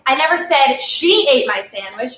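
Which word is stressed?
she. The stress is on "she".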